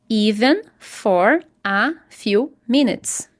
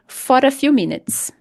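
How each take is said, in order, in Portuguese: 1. For e a são falados separadamente. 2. O R de for emenda no a. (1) "Não é bem melhor do que você falar assim" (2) "Fora, fora. Simplesmente assim"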